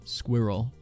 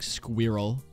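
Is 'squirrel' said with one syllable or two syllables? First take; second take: two; two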